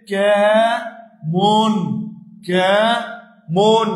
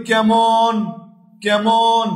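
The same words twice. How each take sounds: First: কেমন very slowly as "kæ... mon"; syllable by syllable. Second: কেমন said as "kæmon"; open e. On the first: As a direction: stretch and split কেমন, pausing after "kæ". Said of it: "উচ্চারণটা যদি আমরা লিখি". (কেমন টেনে, ভেঙে "ক্যা... মোন") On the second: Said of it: "এ এর মতো হবে". (কেমন-এর উচ্চারণ "ক্যামন") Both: Shown as a demonstration.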